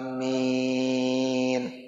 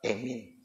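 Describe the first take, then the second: First: The vowels are drawn out long. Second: The first vowel sounds like e. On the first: It is the response after the prayer recitation. "Biasanya panjang ya, panjang" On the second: It is an accepted variant reading. "ya itu imalah, pakainya emin. Boleh"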